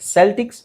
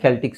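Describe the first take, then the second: First: The word begins with an s sound. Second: The word begins with a k sound. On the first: "ಎರಡು ಥರನೂ ಹೇಳ್ತಾರೆ" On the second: "ಸಿನ ಕೆ ಅಂತಲೂ ಹೇಳ್ತಾರೆ"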